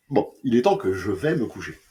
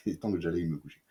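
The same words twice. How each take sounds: First: Said in the usual way. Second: Quick, soft, laughing retake; giggling through the line, rushed. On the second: Real, not acted. Tired reviewer laughing over his own fumbled line. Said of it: "Oh, ça va pas, putain".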